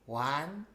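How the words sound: It is counted in a small childlike voice. "count to three as a very young child"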